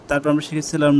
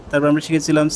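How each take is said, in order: Both takes have the same delivery.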